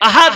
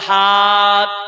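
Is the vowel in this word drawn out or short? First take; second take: short; drawn out. First: The vowel is short and said quickly. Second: The vowel is drawn out and lengthened. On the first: God is one. The speaker calls it right. "কোনো টান নেই, তাড়াতাড়ি বলতে হবে" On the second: God is many. The speaker calls it wrong. "আর যদি আমি টান দিই"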